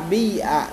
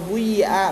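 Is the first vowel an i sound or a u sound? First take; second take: i sound; u sound. First: The first vowel is a front i sound. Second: The first vowel is a rounded u sound. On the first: "bisa di kasroh" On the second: "bisa di dhamma"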